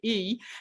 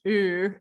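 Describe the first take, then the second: First: The vowel is said with relaxed, natural lips. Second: The vowel is shaped with rounded, pushed lips. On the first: The speaker calls it right. "I want you to just say it naturally" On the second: The speaker calls it wrong. "I don't want you to say it with your lips. Ooh, that's not an E"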